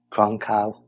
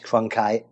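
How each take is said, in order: First: Cronkite with the last syllable as "kal", no final t; mispronounced name. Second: Cronkite ending in a clear "kite"; corrected pronunciation. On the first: Unsure host attempts the newsman's name, mispronouncing Cronkite as "Cronk-al". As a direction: stumble on Cronkite, saying "Cronk-al". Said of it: "is it?". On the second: Host repeats after co-host's correction, Cronkite pronounced properly with "kite". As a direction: say Cronkite as "CRON-kite", with the final t. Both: Real, not acted.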